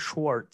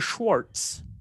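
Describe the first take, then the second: First: The name is said without a t sound. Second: The name is said with a t sound. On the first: The speaker calls it right. "So no T in there" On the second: The speaker calls it wrong. "It's not Mr. Schwartz"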